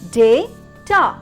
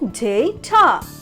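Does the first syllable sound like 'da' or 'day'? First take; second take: day; day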